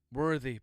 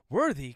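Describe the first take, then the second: First: Said in the usual way. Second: "Worthy" pitched sharply up as a question. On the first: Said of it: "period, close quote". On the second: A narrator's reading. Floyd throws the priest's word back, "Worthy" as a raised question. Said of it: "question mark".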